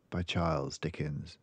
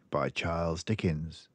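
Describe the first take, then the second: No difference in how they are said.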